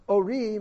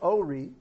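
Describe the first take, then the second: First: The stress is on the last syllable. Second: The stress is on the first syllable. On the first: It tells a woman to get up and give light. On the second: It means my lights.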